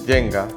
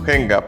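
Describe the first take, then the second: First: The word is pronounced the English way. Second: The word is pronounced the Spanish way. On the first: The speaker calls it wrong. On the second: The speaker calls it right.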